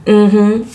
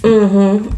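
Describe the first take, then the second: No difference in how they are said.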